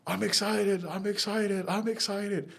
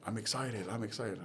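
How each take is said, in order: First: "I'm excited" thrown up much higher, a mock-ecstatic yell; excited scream. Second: "I'm excited" muttered softly, just showing the words; low-key run-through. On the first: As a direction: jump up and shout "I'm excited" at the top of your range. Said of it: "you're gonna jump up and scream". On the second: Retold or imitated. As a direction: quietly rehearse "I'm excited" before doing it for real. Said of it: "scream, 'I'm excited,' three times".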